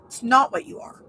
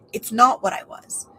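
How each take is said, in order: First: Said in the usual way. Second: Hushed whisper on the contrast. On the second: Real, not acted. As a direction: drop to a breathy whisper. Contrasting what she is and was.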